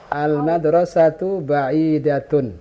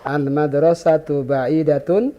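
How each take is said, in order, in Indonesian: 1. Diucapkan dengan intonasi pernyataan. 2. Diucapkan dengan intonasi bertanya.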